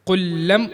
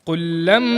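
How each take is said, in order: Both takes have the same delivery.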